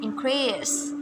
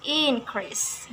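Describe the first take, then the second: First: InCREASE as a verb, stress on CREASE; stress on second syllable. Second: INcrease as a noun, stress on IN; stress on first syllable. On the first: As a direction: hit the last syllable of increase. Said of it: "but in verb". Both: Shown as a demonstration.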